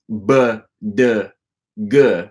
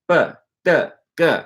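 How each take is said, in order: First: The consonants are voiced, with the vocal cords buzzing. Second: The consonants are voiceless, with no puff of air. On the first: The speaker calls it wrong. "notice I'm not saying b, d, g" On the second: The speaker calls it right. "It's b, d, g"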